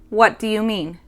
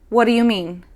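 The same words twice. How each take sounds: First: The phrase is said at a slower, careful pace. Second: The phrase is said very quickly, run together.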